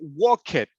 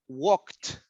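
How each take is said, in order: First: The ending is an extra syllable. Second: The ending is a single t sound. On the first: The speaker calls it wrong. "We don't say walk it" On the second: The speaker calls it right. "it's T, walked"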